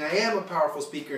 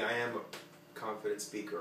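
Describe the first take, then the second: First: It is said loudly and forcefully. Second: It is said quietly and softly.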